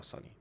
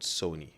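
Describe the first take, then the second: First: "Sony" with a short "uh", SUH-nee; mispronounced Sony. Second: "Sony" said as SOH-nee; long "oh" in "Sony", as in "so"; corrected pronunciation. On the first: Showing viewers his accent slip, "Sony" said SUH-nee. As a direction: say "Sony" to rhyme with "funny". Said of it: "not Sony". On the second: Teaching himself the brand name, "Sony" said SOH-nee. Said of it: "I heard it's called Sony". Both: Shown as a demonstration.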